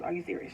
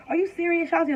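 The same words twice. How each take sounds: First: Said in the usual way. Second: High-pitched mock disbelief; incredulous mom impression, pitched high; mom freaking out. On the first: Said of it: "her favorite line is". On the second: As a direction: imitate an alarmed mom, voice jumping up. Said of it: "My mom immediately kind of freaks out".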